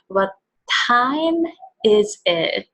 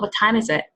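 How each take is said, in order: First: It is slow and clear with exaggerated intonation. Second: It is fast with flat intonation. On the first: "the pronunciation itself is pretty slow and more clear, and the intonation is more drastic" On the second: "It's pretty fast and the intonation is more flat"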